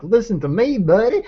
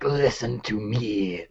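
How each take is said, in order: First: High-pitched, hammed-up mock demon voice; demon as some buddy. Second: Slow, put-on demon voice. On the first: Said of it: "didn't wanna come across that the demon's like some". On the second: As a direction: draw it out slowly like a demon. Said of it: "I tried to do the demon voice". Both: Shown as a demonstration.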